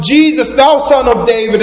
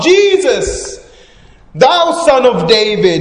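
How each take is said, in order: First: Loud, high cry for attention; pleading cry, projected loudly; raised voice. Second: Full high shout, name stretched out; soaring, insistent cry over the crowd. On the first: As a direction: call out over a crowd, high and loud. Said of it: "He lifts his voice even louder". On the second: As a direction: shout the name even higher to be heard. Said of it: "and then he shouts out". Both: Acted.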